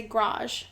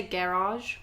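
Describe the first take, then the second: First: "garage" squashed to "grahzh"; "garage" in one beat, like grazh; one-syllable garage. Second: "garage" with both syllables, geh-RAHZH; "garage" as a full ga-RAHZH; two-syllable garage. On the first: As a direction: drop the first vowel of "garage". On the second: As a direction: sound out the first vowel of "garage". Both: Shown as a demonstration. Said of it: "One syllable".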